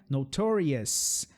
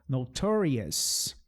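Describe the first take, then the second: Both takes have the same delivery.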